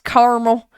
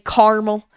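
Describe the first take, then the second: First: The word is said with three syllables. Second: The word is said with two syllables. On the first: The speaker calls it right. "It's caramel. There's a second A" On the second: The speaker calls it wrong. "I hate when people say caramel"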